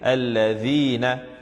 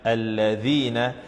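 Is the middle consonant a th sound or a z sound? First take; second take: th; th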